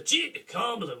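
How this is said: It is said hammed up in a Scottish accent. The speaker calls it right. "that actually sounds Scottish"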